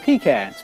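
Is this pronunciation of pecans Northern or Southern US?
Northern. The word is said the Northern US way. "I'm a Yankee... Growing up, we ate pecans"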